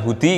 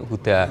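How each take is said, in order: First: The word ends with an i vowel. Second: The word ends with an a vowel. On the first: The speaker calls it wrong. "tidak kemudian minal hudi kamu" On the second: The speaker calls it right.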